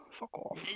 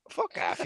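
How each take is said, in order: First: Under the breath, annoyed; muttered swear. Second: Higher, hissed fuck off; sharp swear. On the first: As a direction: mutter it to yourself. Frustrated at phone. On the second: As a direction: spit the fuck off out. Snaps at phone. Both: Real, not acted.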